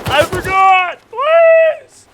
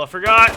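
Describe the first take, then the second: First: High, loud screaming plea; panicked scream. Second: Panicking. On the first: Being killed by the guys, screaming for mercy. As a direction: shriek in panic. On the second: Attacked again, panicking. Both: Real, not acted.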